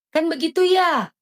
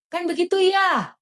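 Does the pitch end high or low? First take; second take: high; high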